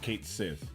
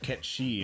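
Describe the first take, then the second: First: The name ends with a 'sith' sound. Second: The name ends with a 'shee' sound. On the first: The speaker calls it wrong. "and not Kate Sith" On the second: The speaker calls it right. "it's actually pronounced Ketshi"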